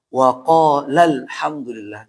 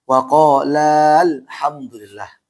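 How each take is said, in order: First: The vowel before the article is short. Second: The vowel before the article is lengthened. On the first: The speaker calls it right. "Maka cara baca yang benar adalah" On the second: The speaker calls it wrong. "dibaca kalau wasal maka ini salah"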